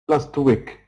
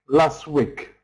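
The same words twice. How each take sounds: No difference in how they are said.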